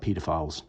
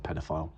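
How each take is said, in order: First: It is said with a British pronunciation. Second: It is said with an American pronunciation.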